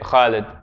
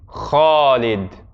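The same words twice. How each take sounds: First: The vowel after kh is short. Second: The vowel after kh is long. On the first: Everyday dialect shapes this way of saying it. The speaker calls it wrong. "they typically say Khalid" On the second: This follows classical Arabic. The speaker calls it right. "that a actually comes after the kha. So to say it correctly would be Khalid"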